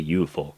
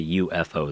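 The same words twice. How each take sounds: First: It is said as one Japanese-style word. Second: It is spelled out letter by letter, English style. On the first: "they say U F O" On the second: "they don't say U F O"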